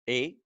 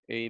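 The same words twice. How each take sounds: First: It is said lively with pitch movement. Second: It is said flat with no pitch movement. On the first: The speaker calls it right. "if you actually pronunciate properly, this is how it goes" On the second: The speaker calls it wrong.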